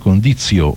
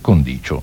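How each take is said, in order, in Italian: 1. La seconda consonante non è palatale. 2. La seconda consonante è palatale. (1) "come fa normalmente il povero Bossi di par condizio o qualcosa di simile" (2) "si dice condicio, con la seconda C palatale"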